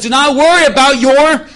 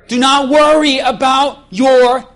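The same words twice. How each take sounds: First: Loud rising cue for the crowd to finish; prompting crowd. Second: Slow, loud, leaving the last word open for the crowd; drawn-out prompt. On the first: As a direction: push it up and hang on your. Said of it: "When I do this, you gotta say life". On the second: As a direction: stretch it out and stop before the last word. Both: Shown as a demonstration.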